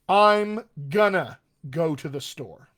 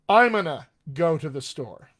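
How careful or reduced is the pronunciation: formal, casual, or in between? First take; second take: moderately casual; quite casual. First: Words are contracted and moderately reduced together. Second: Words are strongly reduced and run together. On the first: "A little more towards informal" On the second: "A little more"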